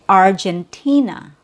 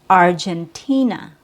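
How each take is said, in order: No difference in how they are said.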